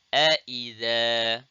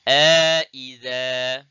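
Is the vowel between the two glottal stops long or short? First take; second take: short; long. First: The two glottal stops follow with no added vowel. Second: An extra long vowel separates the two glottal stops. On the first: "tahqiq wa adamul idkhal" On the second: "dibaca dengan tahqiq ma'al idkhal"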